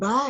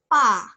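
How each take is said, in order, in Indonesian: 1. Konsonan pertama berat dan bersuara. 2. Konsonan pertama ringan dan tidak bersuara. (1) "kok bukan ba ya?" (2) "jangan berat, lebih ringan B-nya"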